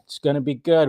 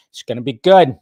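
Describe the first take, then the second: First: Said in the usual way. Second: A louder, punchier "good" with a falling finish; hyped announcement. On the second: Shown as a demonstration. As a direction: sell "it's gonna be good" with a burst of volume.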